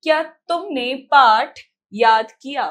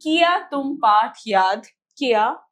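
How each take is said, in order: First: Loud, slow reading with क्या as one syllable; measured read, joined ky in क्या; corrected example sentence. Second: किया opening in two syllables, 'ki-yaa'; faulty example sentence. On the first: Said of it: "सही वाक्य क्या है?". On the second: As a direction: read it out with a split first किया. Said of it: "ये वाक्य पूरा गलत है". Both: Shown as a demonstration.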